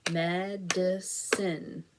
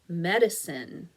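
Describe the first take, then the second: First: Medicine slowly split into med, i, cine; segmented syllables. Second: Said in the usual way. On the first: Shown as a demonstration. Teacher clapping out Medicine for the class, syllable by syllable. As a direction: stretch Medicine over three separate beats. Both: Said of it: "Let's clap it out".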